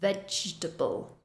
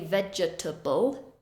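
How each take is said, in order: First: The middle syllable is reduced. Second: Every syllable is fully pronounced. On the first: The speaker calls it right. "We reduce that middle syllable" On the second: The speaker calls it wrong. "We don't say vegetable"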